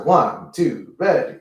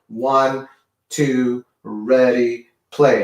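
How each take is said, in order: First: The count is said at a fast pace. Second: The count is said at a moderate pace.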